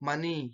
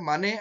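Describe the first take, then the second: First: The word ends in an 'i' vowel. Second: The word ends in an 'e' vowel. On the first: This is the Dharwad dialect form. "ಧಾರವಾಡದ ಕಡೆ ಹೋದ್ರೆ ಅಲ್ಲಿ ಮನಿ" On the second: This is the Mysore dialect form. "ಮೈಸೂರಿನ ಕಡೆ ನಾವೇನ್ ಮಾಡ್ತೀವಪ್ಪ ಅಂದ್ರೆ ಮನೆ ಅಂತ ಕರಿತೀವಿ"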